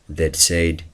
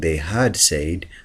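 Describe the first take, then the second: First: The words are shortened into a contraction. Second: Every word is said in full. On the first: "you say that that said the truth" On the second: "Instead of saying they had said"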